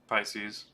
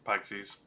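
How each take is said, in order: First: It is said with an 's' sound, like pie-seas. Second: It is said with a 'ks' sound, like pixies. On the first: The speaker calls it right. "like the um, uh, astral sign" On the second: The speaker calls it wrong. "I was not going to pronounce it correctly"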